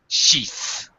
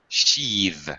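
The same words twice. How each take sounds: First: The th is voiceless, just air. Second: The th is voiced, with a buzz. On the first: It is the noun. "The noun form has a voiceless th" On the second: It is the verb. "the th now becomes a voiced th"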